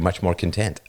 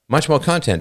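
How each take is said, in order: First: The stress in 'content' is on the second syllable. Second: The stress in 'content' is on the first syllable. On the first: "just a little change in emphasis on the wrong syllable" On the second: "just a little change in emphasis on the wrong syllable"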